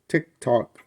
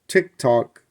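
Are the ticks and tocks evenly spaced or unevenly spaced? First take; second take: unevenly; unevenly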